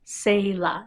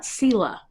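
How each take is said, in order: First: Selah whispered as SAY-luh, long A in the first syllable; correct pronunciation. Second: Sela said as SEH-luh, short e in the first syllable; wrong pronunciation. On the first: Explaining the accent mark to viewers, whispered correct long A. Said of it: "that makes it a long A sound". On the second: Correcting a brand name for viewers, deliberately wrong short e. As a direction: show the mistake: Sela with a short SEH sound. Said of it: "it's not Sela". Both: Shown as a demonstration.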